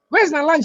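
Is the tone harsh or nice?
harsh. It is said in a harsh, rude tone. The speaker is annoyed and demanding. The speaker calls it wrong.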